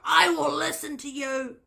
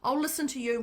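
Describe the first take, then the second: First: It is shouted in a high, screechy voice. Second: It is said in a calm, even voice. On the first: It comes from the head and ego. The speaker calls it wrong. "that was a bit of a screechy one" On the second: It comes from the heart. The speaker calls it right. "when you speak from the heart"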